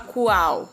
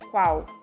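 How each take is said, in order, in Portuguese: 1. O u e a são separados em duas sílabas. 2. O u e a se juntam em uma sílaba. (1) "A gente não fala qual" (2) "a gente diz qual"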